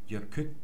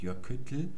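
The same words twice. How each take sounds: First: The final l is a t-stop then voiceless air. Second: The final l is a plain voiced l. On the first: The speaker calls it right. "sehr stimmlos aus. ... Man stoppt also beim T und lässt dann nur noch die Luft an der Zunge entlang" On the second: The speaker calls it wrong. "Man sagt also nicht Jökull"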